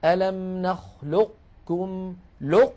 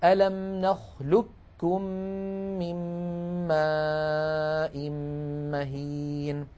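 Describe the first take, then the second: First: نخلقكم said very slowly with the qaf kept heavy before the kaf; partial assimilation demo. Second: نخلقكم recited very slowly as nakhlukkum, a doubled kaf; full assimilation demo. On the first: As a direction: hold the heavy qaf in نخلقكم, then cut off. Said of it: "فمكي بن أبي طالب رواها هكذا". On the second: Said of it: "هكذا". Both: Shown as a demonstration.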